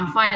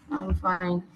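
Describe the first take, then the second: First: The voice is bright and lively. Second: The voice is low and flat. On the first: The person is genuinely okay. "my voice, the way I answered you alone already classified that I know she's okay" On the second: The person may be sick, weak or unwilling to talk. "you will notice my tone is low"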